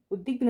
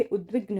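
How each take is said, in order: First: उद्विग्न without the v, ud-dig-nu; wrong pronunciation. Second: उद्विग्न with v after d; correct pronunciation. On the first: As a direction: drop the v from उद्विग्न. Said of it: "उद्विग्न ना होके". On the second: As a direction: say उद्विग्न as ud-vig-na. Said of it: "उद्विग्न होता है". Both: Shown as a demonstration.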